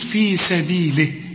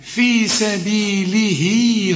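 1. الكلمة بتخلص قصيرة من غير مد للحركة. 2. الحركة الأخيرة بتتمد وتتوصل على الكلمة اللي بعدها. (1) "اذا وقفت هتقول في سبيله بدون مد" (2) "اذا وصلت تقول في سبيله صفا"

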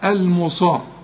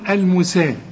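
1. صوت السين مفخم، مثل saad. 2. صوت السين مرقق، مثل seen. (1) "انت تنطق الحرف اللي فوق ... الصاد" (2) "لو السين فوق اقول المسا"

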